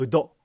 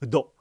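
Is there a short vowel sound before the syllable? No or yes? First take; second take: yes; yes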